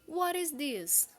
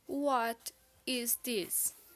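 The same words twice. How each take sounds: First: It is said at normal speed. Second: It is said slowly.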